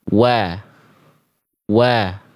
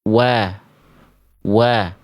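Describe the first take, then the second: The two takes are said the same way.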